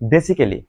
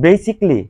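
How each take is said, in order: First: The word is said with four syllables. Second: The word is said with three syllables. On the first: The speaker calls it wrong. "যেটাকে আমরা বলি বেসিক্যালি" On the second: The speaker calls it right. "যেমন বেসিকলি"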